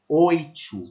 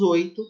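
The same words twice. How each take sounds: First: The t after i sounds like 'ch'. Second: The t after i sounds plain. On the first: This is how people in the North and Northeast say it. "Eles palatalizam o T depois do I" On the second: This is how people in inland São Paulo say it. "A gente não faz isso"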